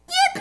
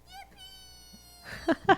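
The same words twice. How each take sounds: First: It is said loudly. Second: It is said fairly quietly.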